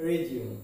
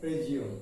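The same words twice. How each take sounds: No difference in how they are said.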